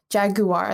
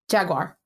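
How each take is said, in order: First: It is said with a British pronunciation. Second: It is said with a non-British pronunciation. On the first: "is how you say it in the U K" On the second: "That's how we I would say it"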